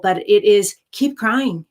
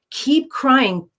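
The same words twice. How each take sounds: First: Said in the usual way. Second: "keep crying" said again much higher with a falling "keep"; emphatic repeat. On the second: Real, not acted. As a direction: hammer home "keep crying" the second time. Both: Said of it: "my advice to you sounds very simple".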